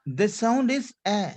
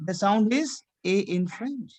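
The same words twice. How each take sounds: First: "A" as an open French è, eh; grave-accent E. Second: "A" as a closed French é, ay; acute-accent E. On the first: Teacher explains left-hand accent sound, grave-accent E. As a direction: say "A" as a wide eh vowel. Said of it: "it is going towards left hand side". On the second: Teacher explains right-hand accent sound, acute-accent E. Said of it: "it is going towards right hand side". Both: Shown as a demonstration.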